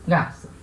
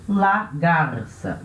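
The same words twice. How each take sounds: First: Said in the usual way. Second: Slow, drawn-out Spanish "la garça"; careful Spanish model of GARÇA; Spanish pronunciation. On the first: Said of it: "la garça". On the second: Shown as a demonstration. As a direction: say GARÇA in Spanish with a tapped R before the S.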